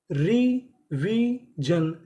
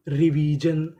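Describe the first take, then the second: First: Very slow "revision", three long separate syllables. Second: Said in the usual way. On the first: Shown as a demonstration. Teacher reads the next word to learners, slowly syllable by syllable. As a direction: draw out each syllable of "revision" with a gap.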